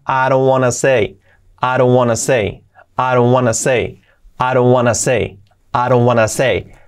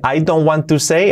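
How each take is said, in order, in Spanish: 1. 'Want to' se reduce a 'wanna'. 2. 'Want to' se dice como dos palabras completas. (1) "a I don't wanna say" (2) "Fijaos de I don't want to say"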